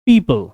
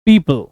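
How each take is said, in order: The two takes are said the same way.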